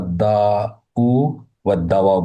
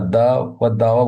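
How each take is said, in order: First: A 'u' vowel ending follows the first word. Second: No vowel ending is added after the first word. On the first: "অথবা আমরা আদা উ ওয়া দাওয়া বলতে পারি" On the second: "কয়েকভাবে বলতে পারি"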